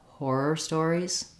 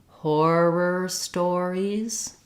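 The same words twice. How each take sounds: First: The phrase is said quickly at natural speed. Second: The phrase is said slowly and carefully. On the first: "Speeding it up" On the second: "So going slowly"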